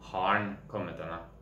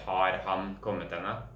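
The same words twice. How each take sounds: First: 'Har han' is reduced and run together. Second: Every word is pronounced fully and separately. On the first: The speaker calls it right. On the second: The speaker calls it wrong.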